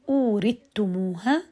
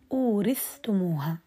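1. تُدغم الثاء في التاء تماماً. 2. الثاء والتاء تُنطقان منفصلتين. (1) "أدغم هشام" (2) "وأظهر ابن ذكوان"

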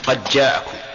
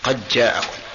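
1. يُدغم صوت الدال في الجيم التي بعدها. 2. يُدغم صوت الدال في الجيم التي بعدها.

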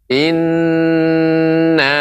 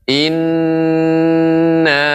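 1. Bunyi n ditahan panjang. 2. Bunyi n ditahan panjang.

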